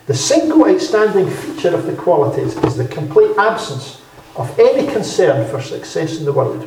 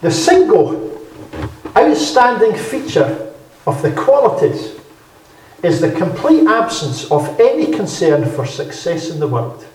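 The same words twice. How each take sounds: First: Said in the usual way. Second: A preacher savouring a quote; slow emphatic reading. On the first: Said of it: "repeated quote". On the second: Shown as a demonstration. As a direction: lean hard on single and outstanding. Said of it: "Here's a good quote".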